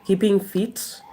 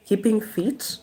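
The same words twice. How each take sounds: The two takes are said the same way.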